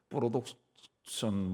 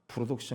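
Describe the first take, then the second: First: It is said with a Japanese-style pronunciation. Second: It is said with a plain, ordinary pronunciation.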